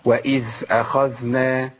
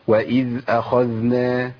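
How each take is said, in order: First: The dh sound turns breathy like th. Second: The dh sounds are clear and flowing. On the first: The speaker calls it wrong. "دي مش ذال، انا كده دخلت على مخرج الثاء لاني مشيت النفس" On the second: The speaker calls it right. "مطلوب ان انا ابين الصوت زي ما عملت كده"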